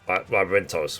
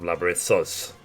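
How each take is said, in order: First: The middle consonant is a plain t sound. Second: The middle consonant is a th sound. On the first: "he silences the H in Labyrinthos" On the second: "rather than"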